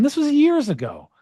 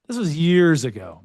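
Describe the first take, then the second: First: Higher, lighter first read; years said high then repeated; high first take. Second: Said in the usual way. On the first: Shown as a demonstration. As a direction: toss it off high.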